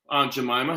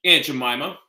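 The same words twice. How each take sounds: First: "Aunt" with a broad ah vowel; AUNT as "ahnt". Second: "Aunt" said like the insect "ant". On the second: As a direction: say "Aunt" with the short a of "cat". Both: Shown as a demonstration. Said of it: "however you wanna say it".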